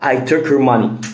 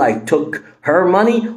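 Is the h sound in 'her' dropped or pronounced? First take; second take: dropped; pronounced. First: The h in 'her' is dropped and linked. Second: The h in 'her' is clearly pronounced. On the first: The speaker calls it right. "قول" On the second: The speaker calls it wrong. "بدل ما تقول"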